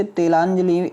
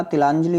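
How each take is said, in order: First: "तिलांजलि" starting te- with long final i; wrong "तिलांजलि". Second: "तिलांजलि" with short i vowels; correct "तिलांजलि". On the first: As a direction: open तिलांजलि on te instead of ti. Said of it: "नहीं होता". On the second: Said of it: "छोटी की मात्रा". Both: Shown as a demonstration.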